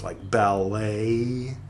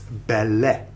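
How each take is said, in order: First: The word ends with an added 'ay' vowel. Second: The word ends without an added 'ay' vowel. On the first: The speaker calls it wrong. "the Americans like to add a A sound to the E T words" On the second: The speaker calls it right. "No, it's ballet"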